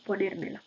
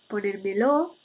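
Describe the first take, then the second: First: The last syllable carries no stress. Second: The last syllable also carries stress. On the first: "en lugar de" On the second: "la pronunciación tónica de pronombres átonos enclíticos"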